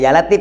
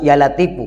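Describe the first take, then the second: First: The word ends on the consonant f. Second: The word ends with an extra u vowel. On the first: The speaker calls it wrong. "Awas jangan baca Ya Latif ya" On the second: The speaker calls it right. "harus Ya Latifu karena di situ asrarnya"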